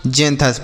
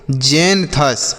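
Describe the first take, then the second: First: Said in the usual way. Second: जेंथस slowly split as "jen ... thus"; syllable-by-syllable pronunciation. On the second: Shown as a demonstration. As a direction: stretch जेंथस into two drawn-out syllables. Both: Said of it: "पढ़ने पर ध्यान दीजिएगा".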